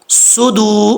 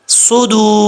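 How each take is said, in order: First: The first vowel is a short u. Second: The first vowel is a short u.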